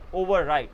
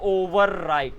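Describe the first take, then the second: First: The r sound is dropped, not pronounced. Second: The r sound is clearly pronounced. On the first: The speaker calls it right. "आर का sound कम हो जाता है, तो आर बोलते ही नहीं" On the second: The speaker calls it wrong. "आप ये नहीं बोलोगे"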